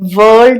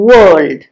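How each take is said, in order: First: It starts with a v-like sound. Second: It starts with a rounded-lip w sound. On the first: The speaker calls it wrong. "വേൾഡ് എന്നല്ല പറയുന്നത്" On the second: The speaker calls it right. "ലോകം നമ്മൾ പറയുന്നത് world"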